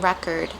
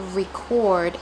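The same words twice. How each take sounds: First: Second record said REK-erd; noun pronunciation. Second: First record said ree-CORD; verb pronunciation. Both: Shown as a demonstration. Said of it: "There's a difference between".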